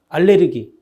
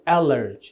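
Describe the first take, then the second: First: The word has four syllables ending in gi. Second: The word has three syllables ending in ji. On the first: "알레르기인데" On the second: "영어 발음은 ... 알러지라고"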